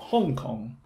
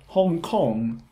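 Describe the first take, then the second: First: The stress is on the first syllable. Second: The stress is on the second syllable. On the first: The speaker calls it wrong. "not Hong Kong" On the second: The speaker calls it right. "and Hong Kong"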